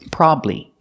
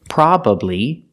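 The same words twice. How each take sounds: First: The word is said with two syllables. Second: The word is said with three syllables. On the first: "or you can pronounce it with two syllables" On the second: "you can pronounce it with three syllables"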